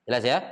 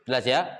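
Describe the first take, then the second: No difference in how they are said.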